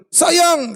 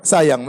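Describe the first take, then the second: First: Calling out sweetly. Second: Said in the usual way. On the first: Retold or imitated. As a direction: call "Sayang" to your wife from another room. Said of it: "kalau manggil". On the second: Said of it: "meskipun teriak-teriak".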